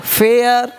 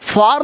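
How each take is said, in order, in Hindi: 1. इसे 'fair' की तरह बोला जाता है, 'air' स्वर के साथ। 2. इसे 'far' की तरह बोला जाता है, 'ah' स्वर के साथ। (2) "फार नहीं"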